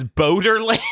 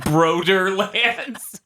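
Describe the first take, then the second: First: Boderlands, with no first R; misread headline. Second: Broderlands, with the R moved after B; high, drawn-out Broderlands, starting Bro; misread headline. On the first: Host teases co-host over a typo in the news, mispronounced Boderlands. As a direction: say Boderlands, dropping the R after Bo. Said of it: "in the news here, it says". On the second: Host piles on the typo joke, mispronounced Broderlands. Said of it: "it says Boderlands". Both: Shown as a demonstration.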